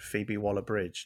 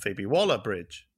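First: The stress falls on Bridge. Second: The stress falls on Waller. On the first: The speaker calls it right. "I think I should put the emphasis on bridge" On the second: The speaker calls it wrong.

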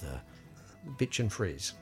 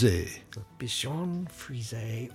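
First: The name is pronounced with English sounds. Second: The name is pronounced with French sounds.

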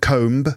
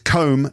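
First: The final B sound is pronounced. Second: The final B sound is silent. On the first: The speaker calls it wrong. "not comb" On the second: The speaker calls it right. "The B is silent, so it's comb"

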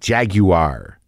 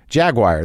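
First: The word has a British pronunciation. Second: The word has an American pronunciation. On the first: "How do they say it in England? ... it's like jaguar or something weird" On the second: "that's what I say"

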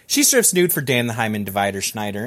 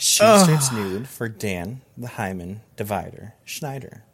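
First: The sentence is read at a normal, quick pace. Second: The sentence is read at a slow, deliberate pace.

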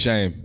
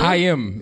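First: The name begins with a soft 'sh' sound. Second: The name begins with a raspy throat sound. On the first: This is an Americanized form of the name. "so many people say it wrong that I just say Shame" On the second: This is the original Hebrew form of the name. "That's the pronunciation"

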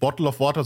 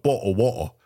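First: The t sounds in bottle are clearly pronounced. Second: The t sounds in bottle are dropped, British-style.

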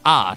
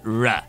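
First: The r is said the French way. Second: The r is said the English way.

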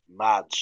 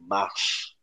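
First: The name is said with a clear d sound. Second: The name is said without a d sound. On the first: The speaker calls it wrong. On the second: The speaker calls it right.

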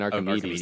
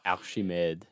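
First: The 'ch' is pronounced as a k sound. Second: The 'ch' is pronounced as an sh sound. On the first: "I'm saying Archimedes" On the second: "They say Archimede"

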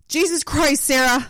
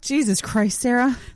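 First: It is said with more passion. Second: It is said with little passion.

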